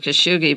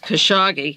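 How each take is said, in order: First: The name is said without a clear 'hog' sound. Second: The name is said with a clear 'hog' sound. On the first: The speaker calls it wrong. "I used to call him Khashoggi" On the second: The speaker calls it right. "if you remember Hogg, it's Khashoggi"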